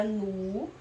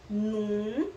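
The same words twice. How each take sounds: First: "nu" with a pure oral U; oral vowel NU. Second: "num" with a long nasal U. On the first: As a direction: say "nu" with no nasal ending. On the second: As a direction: draw out "num", humming through the nose. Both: Shown as a demonstration. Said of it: "Já mudou o som".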